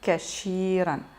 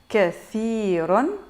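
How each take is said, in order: First: The middle consonant is an sh sound. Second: The middle consonant is a th sound. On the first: The speaker calls it wrong. "inconsciemment elle va dire kashiran" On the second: The speaker calls it right. "là ici c'est le th, c'est pas le che"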